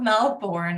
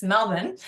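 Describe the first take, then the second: First: "Melbourne" said as Mel-born, second syllable fully sounded; non-Australian pronunciation. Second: "Melbourne" said as Mel-bun, second syllable reduced; Australian pronunciation. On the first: Counselor showing the mistake she was corrected on, "Melbourne" pronounced Mel-born. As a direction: say "Melbourne" with a full "born" ending. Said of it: "I've been corrected enough times to know it's not Melbourne". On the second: Counselor showing the corrected local way, "Melbourne" pronounced Mel-bun. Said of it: "corrected enough times to know it's not Melbourne".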